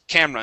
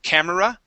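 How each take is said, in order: First: The middle e is dropped, giving two syllables. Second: The middle e is pronounced, giving three syllables. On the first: The speaker calls it right. "we say camera" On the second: The speaker calls it wrong. "instead of camera"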